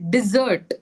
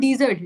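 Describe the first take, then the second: First: The stress is on the second syllable. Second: The stress is on the first syllable. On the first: The speaker calls it right. "E sound will be very small. ... zert will be longer" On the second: The speaker calls it wrong. "No, not dessert. ... Don't stress on the E sound"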